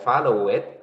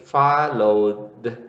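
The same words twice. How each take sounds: First: "follow it" with an added syllable after follow; teacher shows the wrong way, saying "follow it"; wrong extra syllable. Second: "followed" in two syllables, a plain D at the end; teacher gives the right form "followed", with no extra syllable; correct past tense. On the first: Teacher shows students the wrong past tense, adding a syllable. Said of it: "you are not going to pronounce". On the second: Teacher models the correct past tense for students, two syllables. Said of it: "So you would say". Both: Shown as a demonstration.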